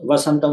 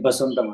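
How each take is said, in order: First: The word begins with a v sound. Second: The word begins with a b sound. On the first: "ఇప్పుడు వసంతం ఉందనుకోండి" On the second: "వా వచ్చినా బా పలుకుతారు"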